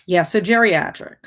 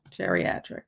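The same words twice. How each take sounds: First: Said in the usual way. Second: Geriatric breathed out as a whisper, much quieter; whispered echo. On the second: Shown as a demonstration. Repeating geriatric to chat in a whisper. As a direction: whisper the word geriatric back to herself. Echoing the word.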